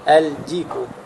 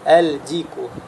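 First: The L is clearly pronounced before the D. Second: The same.

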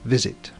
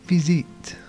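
First: The first vowel is a short 'i' sound. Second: The first vowel is a long 'ee' sound. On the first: The speaker calls it right. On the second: The speaker calls it wrong.

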